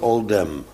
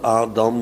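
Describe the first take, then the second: First: The first vowel is a rounded 'oh' sound. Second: The first vowel is an open 'ah' sound. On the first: "de andere categorie spreekt het uit als een O" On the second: "de ene categorie Joden spreekt de alef uit als een A"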